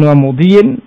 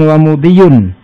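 First: The word ends with an -in ending. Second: The word ends with an -un ending. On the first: The word is joined to the word meaning command. "Bisa dibaca jar" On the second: The word is joined to the word meaning verb. "boleh pula dibaca dengan rafa"

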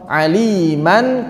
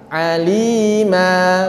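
First: The word ends with an n sound. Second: The word ends with a long a vowel. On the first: The reading continues into the next word. "Saat wasol tidak ada mad" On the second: The reading stops at this word. "kita baca alima"

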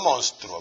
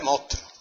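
First: It is said with a standard Spanish pronunciation. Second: It is said with an Andalusian pronunciation. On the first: The speaker calls it wrong. "no monstruo" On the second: The speaker calls it right. "En andaluz se dice monstruo"

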